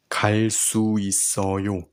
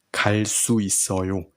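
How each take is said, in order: First: 갈 수 있어요 whispered quickly without voice. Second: Said in the usual way. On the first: Shown as a demonstration. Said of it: "teacher whispers the practice phrase". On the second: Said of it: "teacher says it aloud after whispers".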